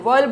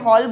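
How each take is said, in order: First: The word is said with a 'wer' sound. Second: The word is said with an 'haw' sound. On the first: The speaker calls it right. "वर्ल बोलते हैं इसको" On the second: The speaker calls it wrong. "हॉल pronunciation नहीं है"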